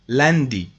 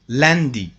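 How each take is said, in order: Both takes have the same delivery.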